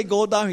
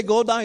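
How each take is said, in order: First: Firm mock order, a bit louder; insisting. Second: Pushier repeat of the mock order, louder and higher; insisting harder. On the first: Retelling the clash with the expedition leader, firm insistence. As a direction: tell him flatly to go down. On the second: Repeating the order to the stubborn leader, escalating insistence. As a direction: push back harder this time. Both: Retold quarrel on the mountain.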